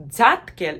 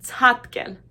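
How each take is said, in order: First: 'tatkel' opened with a buzzing dz; voiced dz variant. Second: 'tatkel' louder, with airy ts onset; aspirated ts. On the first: Teacher showing what jump is not, contrast demo. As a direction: say 'tatkel' as dzat-kel. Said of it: "is certainly not the same as". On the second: Teacher giving the real word for jump, firm demo. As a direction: punch 'tatkel' as ts-hat-kel. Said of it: "certainly not the same as". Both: Shown as a demonstration.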